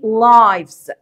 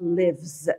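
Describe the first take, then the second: First: The vowel is a long 'eye' sound. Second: The vowel is a short 'ih' sound. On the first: It is the plural noun meaning souls. "الأرواح بنقول عليها ايه؟" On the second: It is the verb meaning someone lives. "لكن هنا الفعل انا نطقته ازاي؟"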